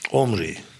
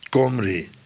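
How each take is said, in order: First: The name begins directly with a vowel. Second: The name begins with a k sound. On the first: "in het moderne Hebreeuws spreekt men hem überhaupt niet meer uit" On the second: "Maar het wordt al gauw een K"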